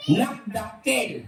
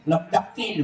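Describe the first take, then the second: First: Drawn-out answer. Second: Said in the usual way. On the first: Real, not acted. Contestant answers the big-duck riddle, drawn out. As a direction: stretch NAGDAKIL out very slowly.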